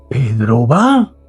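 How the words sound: It is said with an incredulous tone. The speaker cannot believe Pedro is going. "no lo puedo creer"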